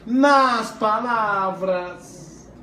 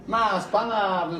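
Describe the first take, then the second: First: Nas palavras stretched very slowly, word by word; slow teacher emphasis on "nas palavras"; drawn-out emphasis. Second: Said in the usual way. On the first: Shown as a demonstration. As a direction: lean on "nas palavras" and draw out every syllable. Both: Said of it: "então, nas expectativas".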